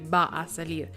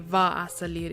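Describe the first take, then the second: First: The first word begins with a B sound. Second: The first word begins with a V sound. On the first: This is how it is said in Spain. "in Spain they say the B, they say V as B" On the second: This is how it is said in Colombia. "if it's Colombian dialect, because they tend to say the V sound"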